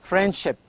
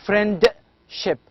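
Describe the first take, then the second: First: The d sound is dropped. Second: The d sound is pronounced. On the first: The speaker calls it right. "I'm saying friendship. there is no D" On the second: The speaker calls it wrong. "I'm not saying friendship"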